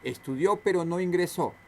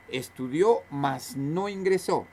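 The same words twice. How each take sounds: First: Said in the usual way. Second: "mas" said slowly and set apart, in place of pero; slow it down and lean on "mas"; a teacher spelling out "mas no ingresó" word by word; slow, stressed demo of mas. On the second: Shown as a demonstration. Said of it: "Ese más es sin tilde porque puede reemplazar a pero".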